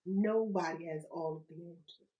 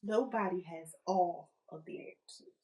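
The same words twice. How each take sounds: First: "Nobody" leaned on, lower and steady; stress on nobody. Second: "Nobody" leaned on again, low and deliberate; weight the word "Nobody" so it lands; stress on nobody. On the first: Host stressing to listeners that "Nobody" knows it all. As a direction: press on "Nobody" so it lands. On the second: Host repeating that "Nobody" has every answer. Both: Shown as a demonstration. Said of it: "That doesn't mean nobody has any answers".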